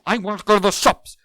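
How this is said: It is said in an angry tone. "That's angry"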